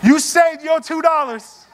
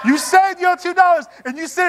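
First: Slow, higher, chuckling through it; amused chuckling delivery; laughing. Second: Higher still, laughing through the words; amused, higher repeat; laughing harder. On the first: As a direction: laugh at your own joke as you say it. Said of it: "laughing at the cheap passenger". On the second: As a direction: crack up on the repeat. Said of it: "repeat, higher and laughing". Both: Real, not acted.

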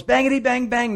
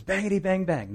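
First: Put-on much higher, louder desperate kid gun noise; yelled gunfire. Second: Put-on playful kid gun noise, a bit higher; mock gunfire. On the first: Soldier yelling at the advancing man, desperate mock gunfire. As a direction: yell it as the enemy closes in. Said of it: "and he yells". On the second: Soldier aiming his broom, light mock gunfire. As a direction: chant it like a child playing war. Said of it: "aims at him and says".

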